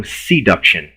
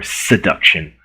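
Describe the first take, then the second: First: "seduction" with a long SEE at the start; stretched first syllable. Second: Said in the usual way. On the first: Shown as a demonstration. Lecturer matching it to the other logic terms, stretched SEE in "seduction". Two pronunciations offered, joined by or.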